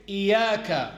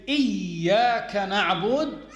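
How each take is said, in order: First: "إياك" with a single, light ya; don't double the ya in "إياك"; unstressed ya. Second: "إياك" with the doubled ya pressed and held; stressed ya. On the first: Teacher warning of a changed meaning, unstressed ya. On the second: Teacher showing the valid recitation, stressed ya. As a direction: lean hard on the ya in "إياك". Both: Shown as a demonstration. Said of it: "without stressing on the ya".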